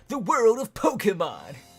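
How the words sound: It is said in a dramatic announcer voice.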